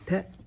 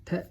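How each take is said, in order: First: The vowel is cut short. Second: The vowel is cut short.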